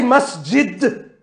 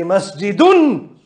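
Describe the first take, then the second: First: Masjid said without the case ending; bare masjid, no ending. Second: Masjidun slow, ending un sounded clearly; masjidun with case ending. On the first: Teacher showing the wrong form, masjid without ending. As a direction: say masjid cut off after the d. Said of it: "don't say masjid". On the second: Teacher modelling the correct masjidun, slow and clear. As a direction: stretch out the un of masjidun. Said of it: "Say masjidun". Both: Shown as a demonstration.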